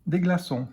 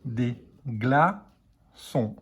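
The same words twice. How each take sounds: First: Said in the usual way. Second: Slow, stretched; careful dictation pace. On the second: Shown as a demonstration. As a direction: dictate "Des glaçons" slowly, gla-çons. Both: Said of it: "c'est le mot entier qu'il faut écrire".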